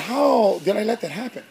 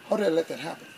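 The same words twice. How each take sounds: First: Said in the usual way. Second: Softer repeat of How did I let that happen; quiet self-reproach. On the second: Retold or imitated. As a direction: ask it again, much softer, to yourself. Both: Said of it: "I had to ask God for forgiveness".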